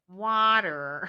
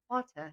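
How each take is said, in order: First: It is said with an American accent. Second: It is said with a British accent. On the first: The child has picked up the local way of speaking. "now she's getting an American accent" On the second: This is the mother's own way of speaking. "instead of water"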